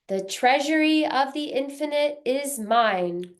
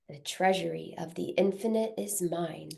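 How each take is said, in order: First: It is spoken loudly and forcefully. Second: It is spoken softly in a normal voice. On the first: "First loudly" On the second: "A bit softer in a speaking voice"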